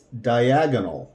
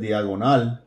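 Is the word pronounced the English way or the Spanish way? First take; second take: English; Spanish. First: The word is said with English sounds and stress. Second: The word is said with Spanish sounds and stress. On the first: The speaker calls it right. "it's diagonal" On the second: The speaker calls it wrong. "Instead of diagonal"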